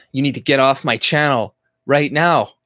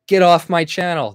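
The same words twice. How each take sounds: First: Said in the usual way. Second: Higher, louder joke of a command; mock angry order. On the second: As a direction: bark it as a pretend kick-out, hammed up. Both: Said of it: "No, I'm kidding".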